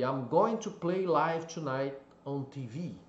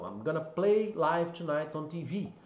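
First: Said in the usual way. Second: "going to" shortened to "gonna", quicker and relaxed; casual reduced form. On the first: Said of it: "um exemplo aí". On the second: Shown as a demonstration. Teacher showing the casual spoken version of the sentence. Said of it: "Então".

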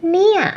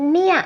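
Both takes have the same delivery.

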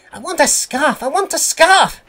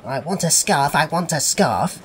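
First: Very high, loud chant; puffing engine. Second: Steady chant near the narrator's pitch; puffing engine. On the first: Percy demanding a scarf, high insistent puffing. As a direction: pipe it up like an insistent little engine. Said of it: "he would puff". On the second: Percy still puffing to himself on the move, lightly chanted. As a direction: puff it along under your breath, lightly voiced. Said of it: "still puffing". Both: A narrator's reading.

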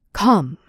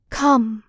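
First: A lightly called out come. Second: Echoing reply. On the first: Narcissus calling to the unseen nymph, lightly called. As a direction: call Come into the empty forest. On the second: Echo repeating Narcissus's word, a faint echo. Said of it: "And Echo answered". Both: A narrator's reading.

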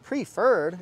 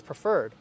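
First: "Preferred" said as PREE-ferred; PREE-ferred, with a full "pree"; mispronounced Preferred. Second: "Preferred" said as pruh-FERRED; pruh-FERRED, lower and offhand; corrected Preferred. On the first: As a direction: say "Preferred" with a long ee in the first syllable. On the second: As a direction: say "Preferred" with a short, reduced first syllable. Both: Shown as a demonstration. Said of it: "it's Preferred".

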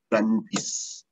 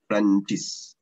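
First: Prantis said slowly and drawn out, with a P in place of the F; Malay Prantis. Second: Prantis repeated at normal speed, still with the P; Malay Prantis. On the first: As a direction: stretch out Prantis as a teacher demo. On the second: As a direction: say Prantis again, quick and plain. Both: Shown as a demonstration. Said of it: "couldn't pronounce français or française".

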